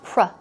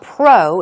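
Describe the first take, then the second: First: The vowel is a short 'uh' sound. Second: The vowel is not a short 'uh' sound. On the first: The speaker calls it right. "it's pro, uh, uh" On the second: The speaker calls it wrong. "not pro"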